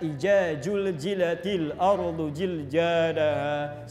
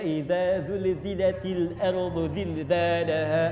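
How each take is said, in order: First: The consonants are pronounced as j sounds. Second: The consonants are pronounced as z sounds. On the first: "bahkan bukan za, bukan za ... Sudah keliru" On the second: "ada yang baca"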